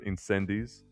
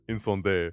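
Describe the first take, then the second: First: It is said with an English-style pronunciation. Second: It is said with a French-style pronunciation. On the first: "I am not pronouncing it like that" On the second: "proper, like French pronunciation"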